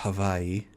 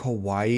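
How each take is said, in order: First: It uses the native Hawaiian pronunciation. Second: It uses the everyday English pronunciation.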